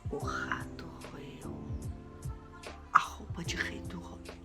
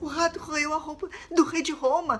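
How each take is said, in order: First: It is said in a worried tone. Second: It is said in a terrified tone.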